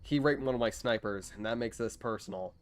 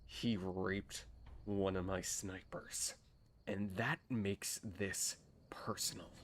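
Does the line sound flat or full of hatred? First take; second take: flat; hatred. First: It is said flatly, without much feeling. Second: It is said with intense, seething hatred.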